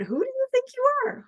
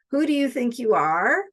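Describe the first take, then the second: First: Much higher, quick and wondering; curious delight. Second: Critical challenge. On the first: Coach reframing a harsh question, high and delighted. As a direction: ask it as a joyful open question. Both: Shown as a demonstration. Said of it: "What if we turn that around?".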